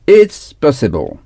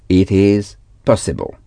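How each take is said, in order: First: "It is" is contracted into one syllable. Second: "It is" is said as two full words.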